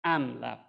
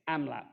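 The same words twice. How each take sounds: First: Amlap with the beat on LAP, punched louder; stress on the second syllable. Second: Amlap with the beat on AM; stress on the first syllable. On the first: Lecturer showing the wrong stress, amlap with a loud LAP. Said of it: "with the beat on the second syllable". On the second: Lecturer demonstrating the natural stress, amlap with a strong AM. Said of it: "we beat on the stressed syllable". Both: Shown as a demonstration.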